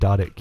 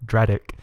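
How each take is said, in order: First: The name begins with the sounds 'dar'. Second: The name begins with the sounds 'dra'. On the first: The speaker calls it wrong. "I've been mispronouncing your name" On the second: The speaker calls it right. "it says right here Dradic"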